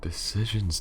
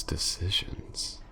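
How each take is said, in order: First: Said in the usual way. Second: Slow whispered decisions, rising at the end. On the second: Acted. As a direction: breathe decisions slowly as a toying whisper. Villainess muses over prey's fate.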